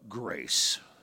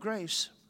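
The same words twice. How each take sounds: First: The word is drawn out with a preacher-like inflection. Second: The word is said flatly, with no drawn-out inflection. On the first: The speaker has spent time in church. "we'll go grace. Like there's just a certain like intuitive inflection that we have" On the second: The speaker is not a churchgoer. "other people will go grace"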